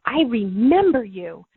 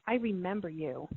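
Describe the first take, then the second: First: Louder and slower, leaning into remember; tearful outburst. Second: Soft and choked, barely above a breath; tearful hush. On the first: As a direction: let it swell as the tears break through. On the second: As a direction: say it quietly, as if tears are starting. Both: Retold or imitated. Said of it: "I started crying, going".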